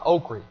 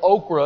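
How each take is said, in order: First: The word ends with an 'ee' sound. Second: The word ends with an 'ah' sound. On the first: This is the local, regional way of saying it. "down home we call it okra. It's O-K-R-Y" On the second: This is the standard, proper way of saying it. "okra is the proper pronunciation"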